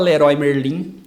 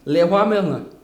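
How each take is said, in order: First: The name has a Brazilian Portuguese pronunciation. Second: The name has a French pronunciation. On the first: "eles não falam Leroy Merlin" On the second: "eles falam o nome de verdade... É francês"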